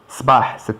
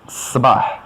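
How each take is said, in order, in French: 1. Le s au début est court. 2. Le s au début est appuyé et long. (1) "c'est un matin" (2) "si on rajoute un S, tu appuies sur le S, ça devient le matin"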